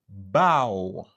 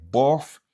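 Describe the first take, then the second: First: The word ends with an ow sound. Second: The word ends with an f sound. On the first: The speaker calls it right. "c'est ow" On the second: The speaker calls it wrong. "Ni c'est pas pla, plof ou bien bof"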